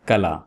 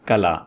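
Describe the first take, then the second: Both takes have the same delivery.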